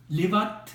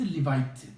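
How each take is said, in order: First: The middle syllable has a plain 'a' vowel. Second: The middle syllable has an 'ai' glide. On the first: It means daughter. "리바트 하게 되면은 이건 딸이에요" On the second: It means wife. "리바이트 하면은 아내예요"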